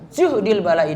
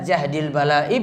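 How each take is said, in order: First: The first word has a 'u' vowel. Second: The first word has an 'a' vowel. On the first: A trial felt too heavy to bear. "dengan dhammah" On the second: The heaviness of a trial. "Yang pertama tadi dengan fathah jahdil"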